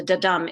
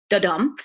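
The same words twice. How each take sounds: First: Said in the usual way. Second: Da-dum with the dum stressed; iamb rhythm demo. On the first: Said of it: "the da-dum is one foot". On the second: Shown as a demonstration. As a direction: tap out da-dum, light then heavy. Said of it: "an unstressed syllable followed by a stressed syllable".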